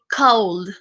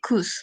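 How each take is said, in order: First: The L sound is pronounced in the word. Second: The L sound is silent in the word. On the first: The speaker calls it wrong. "no se dice cold" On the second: The speaker calls it right. "se dice could. Como si acá hubiera solamente una U y la L no tuviera sonido"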